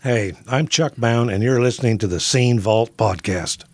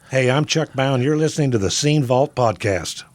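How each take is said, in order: First: It is said slower with less energy. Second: It is said quicker with more energy.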